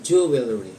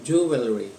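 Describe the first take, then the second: First: It begins with a full 'joo' sound. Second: It begins with a full 'joo' sound.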